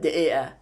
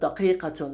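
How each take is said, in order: First: It is said in Egyptian dialect, q dropped. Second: It is said in Standard Arabic with q sounds.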